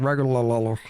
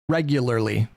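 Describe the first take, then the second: First: The syllables are slurred and partly swallowed. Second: Every syllable is pronounced clearly and fully. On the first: The speaker calls it wrong. "if you're kind of doing the mumble thing" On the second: The speaker calls it right. "that one gets so much easier if you just enunciate"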